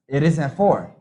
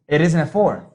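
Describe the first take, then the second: Both takes have the same delivery.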